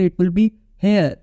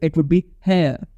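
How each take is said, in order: First: "here" ending in a clearly sounded American R. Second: "here" with no R at the end, British-style; British silent R. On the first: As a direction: pronounce the final R in "here", American-style. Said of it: "clear आर का pronunciation करते हैं". ("here" के आख़िर का अमेरिकी आर साफ़ बोलते हुए) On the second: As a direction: drop the final R of "here", leaving an open vowel. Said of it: "when you would be speaking in British accent". ("here" का आख़िरी आर छोड़कर ब्रिटिश उच्चारण) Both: Shown as a demonstration.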